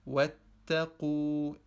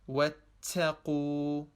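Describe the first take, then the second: First: The t has only slight air, still t. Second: The t has too much air, nearly s. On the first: The speaker calls it right. "Wattaqu is the correct way to pronounce it" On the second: The speaker calls it wrong. "not wattaqu"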